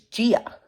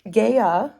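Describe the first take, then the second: First: The name is said like the aunt's name. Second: The name is said the speaker's old way. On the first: This is how the narrator says it. The speaker calls it right. "but it's Gia. It's like my aunt's name" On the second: This is how the speaker used to say it. The speaker calls it wrong. "who I thought was the way that you pronounce the Earth goddess's"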